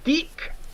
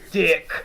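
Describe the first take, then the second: First: The vowel is a long 'ee' sound. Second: The vowel is a short 'i' sound. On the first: The speaker calls it wrong. "it's not Deek like how they pronounce it" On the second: The speaker calls it right. "It's Dick"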